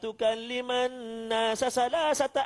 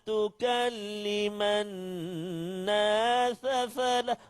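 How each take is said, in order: First: Every hissing sound is pronounced as s. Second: Every hissing sound is pronounced as th. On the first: "Oh, semua sin" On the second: "Oh, semua tha pula"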